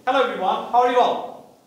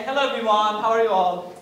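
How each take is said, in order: First: Open, assured hello to the room; lightly confident welcome; confident greeting. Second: Hesitant hello, holding back; a hint of nerves in the hello; timid, unconfident greeting. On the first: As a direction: greet everyone like you own the stage. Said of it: "It hits different". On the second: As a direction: greet the room as if you are unsure of yourself. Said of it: "I'm not confident". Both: Shown as a demonstration.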